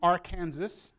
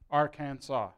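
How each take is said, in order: First: The final S is pronounced as a hard S. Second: The final S is silent. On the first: The speaker calls it wrong. "saying Arkansas, I just broke the law" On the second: The speaker calls it right. "that hard S is not allowed to be said"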